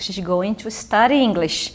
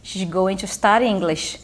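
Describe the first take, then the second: The two takes are said the same way.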